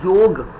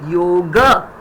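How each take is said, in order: First: The word ends on the consonant g. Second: The word ends with a short a vowel. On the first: This is the Hindi form of the word. "In Hindi, actual pronunciation is yog" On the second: This is the Sanskrit form of the word. "But in Sanskrit, we say yoga. A"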